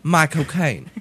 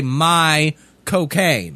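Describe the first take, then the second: First: Quick Cockney accent "My cocaine". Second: Slow Cockney accent "My cocaine". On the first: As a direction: toss off "My cocaine" Cockney style. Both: Shown as a demonstration. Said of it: "Right in the Cockney accent there".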